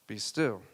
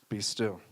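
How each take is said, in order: The two takes are said the same way.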